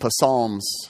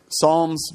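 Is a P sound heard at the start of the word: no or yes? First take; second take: yes; no. First: The word starts with a p sound before s. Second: The word starts with an s sound, no p. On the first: The speaker calls it wrong. "Otherwise, it'd be Psalms" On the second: The speaker calls it right. "you don't pronounce the P"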